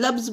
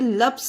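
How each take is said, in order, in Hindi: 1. इस शब्द का अंत भनभनाती हुई z ध्वनि से होता है। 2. इस शब्द का अंत फुसफुसाती हुई s ध्वनि से होता है। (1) "इसे लब्स बोला जाता है" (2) "इसे लप्स नहीं बोला जाता है"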